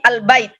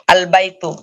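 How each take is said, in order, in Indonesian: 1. Kata itu berakhir dengan bunyi t. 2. Kata itu berakhir dengan bunyi tu. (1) "Tapi al-bait" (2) "Ini tak biasa"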